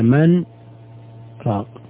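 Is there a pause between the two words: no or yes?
yes. There is a short pause between the words. The two words stay separate.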